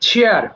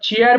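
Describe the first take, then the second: First: The first sound is aspirated, with a puff of air. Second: The first sound is unaspirated, without a puff of air. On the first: The speaker calls it right. "এটা ছ দিয়ে হবে" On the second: The speaker calls it wrong. "আমরা চেয়ার বলি না"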